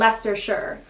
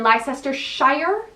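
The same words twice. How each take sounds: First: The name is said the local English way. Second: The name is said the way an American would guess. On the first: The speaker calls it right. "but it's Leicester and Leicestershire" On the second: The speaker calls it wrong. "I used to think it was ... and Leicestershire"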